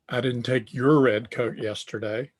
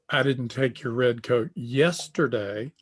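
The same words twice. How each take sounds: First: The stress falls on the word your. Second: The stress falls on the word yesterday. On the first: The coat taken belonged to someone else. "So the inflection there is on your" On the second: The coat was taken on another day. "I took your red coat, but it was last week"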